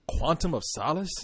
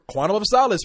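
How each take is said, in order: First: It sounds puzzled and questioning. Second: It sounds eager and enthusiastic. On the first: The name seems strange and unfamiliar. "When they first heard it, they said" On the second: The name now sounds familiar and appealing. "now you're like"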